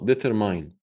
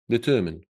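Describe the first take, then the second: First: The last syllable sounds like 'mine'. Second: The last syllable sounds like 'min'. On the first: The speaker calls it wrong. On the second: The speaker calls it right.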